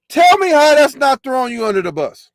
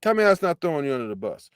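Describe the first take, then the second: First: Higher and louder, demanding an answer; loud challenge. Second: Rattled off fast and softer; fast quiet repeat. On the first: Host demands an answer from the woman, loud and higher. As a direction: shout the challenge at her. Repeats line loud then fast. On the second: Host repeats his challenge to himself, fast and softer. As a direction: mutter it again at speed. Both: Real, not acted.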